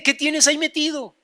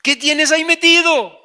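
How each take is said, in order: First: Said in the usual way. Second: Higher, forceful question; insistent demand. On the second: Acted. Wife questioning husband about his safe, forceful. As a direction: demand an answer, pressing harder. Wife's question repeated, louder.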